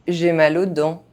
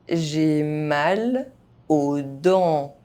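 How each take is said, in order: First: The phrase is spoken fast, sounds reduced. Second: The phrase is spoken at normal speed. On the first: This is how native speakers say it. "fast, as a native speaker would do" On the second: This is the pace learners should use. "at a normal pace"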